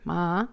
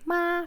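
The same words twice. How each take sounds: First: The pitch dips down and rises again. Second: The pitch stays high and level. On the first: "third tone, from up to down, and then up again" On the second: "flat tone"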